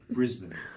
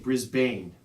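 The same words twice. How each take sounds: First: It is pronounced the Australian way. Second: It is pronounced the American way. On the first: This is how Australians say it. The speaker calls it right. "so I would say Brisbane" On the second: This is how the speaker naturally says it. The speaker calls it wrong. "I would say Brisbane"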